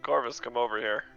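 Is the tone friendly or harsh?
friendly. It is said in a friendly way.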